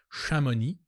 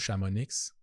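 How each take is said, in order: First: The final x is silent. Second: The final x is sounded. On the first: The speaker calls it right. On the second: The speaker calls it wrong.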